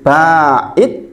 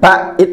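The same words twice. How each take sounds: First: The first vowel is long, with no doubled consonant. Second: The middle consonant is doubled after a short vowel. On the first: Removed so far that it can no longer be seen. The speaker calls it right. "pakai alif" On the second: Moved away but still visible. The speaker calls it wrong. "bukan ba'id pakai tasdid"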